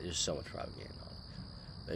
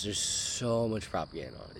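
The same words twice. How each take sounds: First: Whispered under breath. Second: Said in the usual way. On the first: Real, not acted. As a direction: mutter it again, voiceless. Repeats line under breath.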